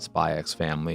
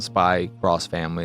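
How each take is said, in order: First: The x is read aloud as 'ex'. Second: The x is read aloud as 'cross'. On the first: "it's not Spy X Family" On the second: "It's not Spy Cross Family"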